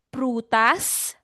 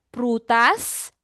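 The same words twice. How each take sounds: No difference in how they are said.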